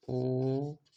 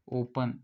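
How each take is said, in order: First: ओपन broken into long o, pa, n; ओपन slowly, sound by sound. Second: Said in the usual way. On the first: Shown as a demonstration. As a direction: hold the o of ओपन, then separate pa and n. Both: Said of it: "इसमें आ रहा है ओ का sound".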